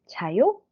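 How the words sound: The voice rises at the end. It is a question.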